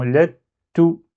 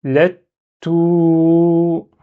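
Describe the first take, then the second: First: "Let", held stop, then short "to" said "tou"; delay "to" after blocking the t; "let...tou", brief final vowel; shadda with dhamma. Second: "Let", stop, then "to" held as "touuu"; "let...touuuu", long level vowel; shadda with prolongation. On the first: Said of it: "ça m'empêche de prononcer dhamma directement". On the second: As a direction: block the t, then sustain the oo of "to". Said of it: "je fais le prolongement". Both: Shown as a demonstration.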